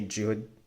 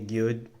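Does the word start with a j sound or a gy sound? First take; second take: j sound; gy sound. First: The word begins with a j sound. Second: The word begins with a gy sound. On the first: "they'll say jud. A lot of the Jia sound" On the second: "they don't really say gyud"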